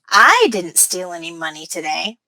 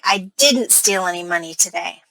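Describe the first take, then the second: First: The word I carries the main stress. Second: The word didn't carries the main stress. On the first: Someone else stole the money. "By putting stress on I" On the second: The speaker is defending against an accusation. "now it sounds like I'm trying to defend myself"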